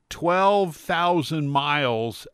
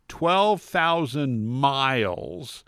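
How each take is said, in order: Both takes have the same delivery.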